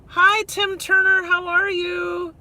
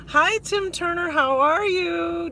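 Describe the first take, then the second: First: Lilting high livestream greeter's hello; live-stream greeting voice. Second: Live-stream greeting voice. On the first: Greeting a viewer on stream in a sing-song high hello. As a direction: chirp the hello like every live streamer does. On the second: Welcoming a viewer with the shared livestream greeting cadence. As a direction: stretch the hello like a livestream host. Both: Shown as a demonstration. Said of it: "Did you hear that?".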